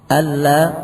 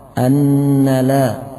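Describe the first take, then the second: First: The n merges fully into the l sound. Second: The n is lengthened into a doubled n sound. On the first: The speaker calls it right. "yang dibaca dengan idgham bila gunnah" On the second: The speaker calls it wrong. "membuat tasdid pada nun"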